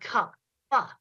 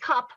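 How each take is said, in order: First: The final p is released with an added vowel. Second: The word ends plainly on a short p.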